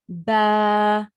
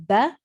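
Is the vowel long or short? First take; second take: long; short. First: The vowel is long, stretched out. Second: The vowel is short, not stretched. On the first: "ba standing fatha" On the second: "ba fatha"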